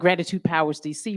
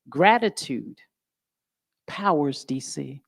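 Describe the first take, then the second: First: It is said quickly and casually. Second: It is said slowly and deliberately.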